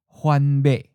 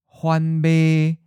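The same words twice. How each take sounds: First: The last syllable is mid pitch and cut short. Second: The last syllable is mid pitch, level and held.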